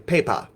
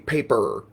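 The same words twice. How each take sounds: First: The word is said without a hard R sound. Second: The word is said with a hard R sound. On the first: "they would say paper" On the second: "so they wouldn't say paper"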